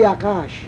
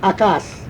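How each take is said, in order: First: The word ends with an sh sound. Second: The word ends with a plain s sound. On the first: The speaker calls it right. "It must be Akash" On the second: The speaker calls it wrong. "Akas is wrong"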